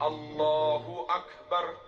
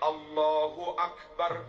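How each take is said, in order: No difference in how they are said.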